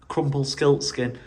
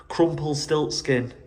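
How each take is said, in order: Both takes have the same delivery.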